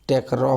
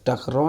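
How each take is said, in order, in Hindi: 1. पहला स्वर 'e' की ध्वनि है। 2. पहला स्वर 'a' की ध्वनि है। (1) "टेकरौ हो जाएगा" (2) "टकरौ नहीं होगा"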